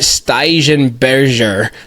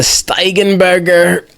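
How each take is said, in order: First: The G sounds are pronounced soft. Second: The G sounds are pronounced hard. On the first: This is how Belgians say it. The speaker calls it right. "they don't do the hard G's" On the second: This is how Americans say it. The speaker calls it wrong. "This is the American way"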